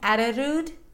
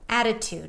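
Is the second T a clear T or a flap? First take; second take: flap; clear T. First: The second T is a soft flap. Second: The second T is a clear T. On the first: The speaker calls it wrong. "I'm not saying attitude. It actually sounds really awkward" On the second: The speaker calls it right. "Because this is a stressed syllable"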